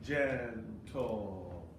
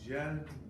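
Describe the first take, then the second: First: The second syllable is stressed. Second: The second syllable is weak. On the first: The speaker calls it wrong. "we don't want it to be gentle" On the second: The speaker calls it right. "de-emphasize the syllable gentle"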